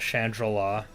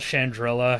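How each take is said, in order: First: The name is said to sound like Shangri-La. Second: The name does not sound like Shangri-La. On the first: The speaker calls it wrong. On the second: The speaker calls it right.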